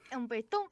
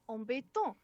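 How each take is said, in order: First: It is said with a lighter French accent. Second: It is said with a stronger French accent. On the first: "I forgot to mispronounce it the first time" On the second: "with more accent the second time"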